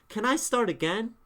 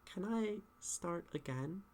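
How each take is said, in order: First: It is said in a forceful, firm way. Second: It is said in an unsure, hesitant way.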